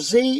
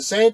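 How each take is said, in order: First: The letter is said as zee, American style. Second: The letter is said as zed, British style.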